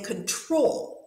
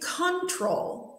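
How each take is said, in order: First: The stress is on the second syllable. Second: The stress is on the first syllable.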